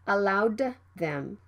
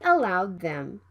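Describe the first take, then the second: First: The D is released with a puff. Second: The D is held without release. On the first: The speaker calls it wrong. "not allowed them" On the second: The speaker calls it right. "Stop the D sound and move to the T H sound right away"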